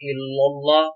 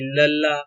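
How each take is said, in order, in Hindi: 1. L को मोटा और भारी पढ़ा जाता है। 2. L को पतला और हल्का पढ़ा जाता है। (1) "इसका मतलब है लाम को हमने पूर्व पढ़ा" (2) "इसका मतलब है लाम को हमने बारीक पढ़ा"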